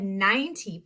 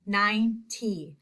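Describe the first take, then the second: First: Said in the usual way. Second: Ninety slowly split into nine and tee; syllable by syllable. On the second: Shown as a demonstration. Teacher lets the class hear the I, slowly split ninety. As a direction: draw out the long I in ninety, then a separate tee. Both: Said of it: "I hear the I".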